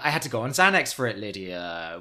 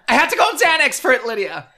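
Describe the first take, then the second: First: It is said plainly, without the original cadence. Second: It is said imitating the original dramatic cadence. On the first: "How dare you just say that and not say it with the cadence?" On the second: "No, that wasn't good"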